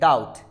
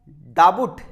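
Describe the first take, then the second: First: The b sound is silent before the t. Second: A b sound is heard before the t. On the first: The speaker calls it right. "It's a डाउट" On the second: The speaker calls it wrong. "डाबुट नहीं"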